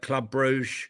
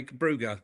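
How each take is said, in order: First: "Brugge" said French-style, as one syllable; Franglais pronunciation. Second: "Brugge" said in two syllables, ending in -uh; corrected local pronunciation. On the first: Real, not acted. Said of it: "I'm sort of going Franglais". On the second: Shown as a demonstration. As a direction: copy the local way of saying "Brugge", with a final -uh. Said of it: "say it in the accent".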